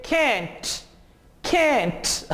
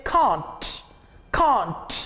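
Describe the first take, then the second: First: American "can't" with a flat A, like "kent". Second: British "can't" with a long open A, "kahnt". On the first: Teacher contrasting the American and British can't. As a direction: say "can't" the American way, with the vowel of cat. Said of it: "American English में आप इसे pronounce करेंगे". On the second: Teacher contrasting the British and American can't. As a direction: say "can't" the British way, with the broad ah vowel. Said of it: "British लोग इसे pronounce करेंगे". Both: Shown as a demonstration.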